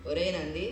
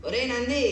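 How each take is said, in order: First: Said in the usual way. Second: Higher, raised-voice summons; sharp call. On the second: Acted. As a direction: call the pupil insistently, voice jumping up. Guru calls again, no answer. (గట్టిగా పిలుపు)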